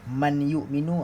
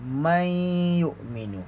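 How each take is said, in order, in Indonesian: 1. Bunyi n jelas terdengar sebelum y. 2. Bunyi n menyatu menjadi y ganda. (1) "ah tu salah" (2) "Bunyi nun tu dah tak ada"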